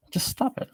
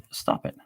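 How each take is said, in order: First: Much higher, squeaky stop it; squeaky mock scold. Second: Said in the usual way. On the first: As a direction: scold in a silly falsetto.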